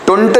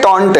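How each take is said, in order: First: The vowel sounds like a short 'uh'. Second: The vowel sounds like an open 'aw'. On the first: The speaker calls it wrong. "टुंट नहीं है" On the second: The speaker calls it right. "टॉन्ट है"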